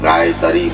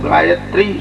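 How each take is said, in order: First: It is split into two separate words. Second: It is said smoothly as one word. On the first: It would mean a cow crossed over. The speaker calls it wrong. "ગાય તરી એટલે શું?" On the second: It names the sacred mantra. The speaker calls it right. "ગાયત્રી એવું તો પેલા બોલ"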